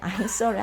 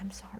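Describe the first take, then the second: First: It is said loudly and clearly. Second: It is mumbled quietly and indistinctly. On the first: The speaker calls it right. "크게 I'm sorry 하셔야 돼요" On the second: The speaker calls it wrong. "말이 안 나서 그냥 I'm sorry 이렇게 이렇게 하고 지나갈 수 있잖아요"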